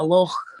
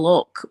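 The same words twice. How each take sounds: First: The word ends with a throaty ch sound. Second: The word ends with a hard k sound. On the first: This is how it is said in Scotland. "in Scotland we call it a loch" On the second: This is how most people say it. "most people say it's called a loch"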